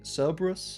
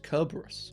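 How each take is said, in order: First: The name begins with a soft S sound. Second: The name begins with a hard K sound. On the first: This is how the name is said today. "this dog we all know and love being Cerberus" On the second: This is how people said the name long ago. "back in those days, they pronounced it Kerberos"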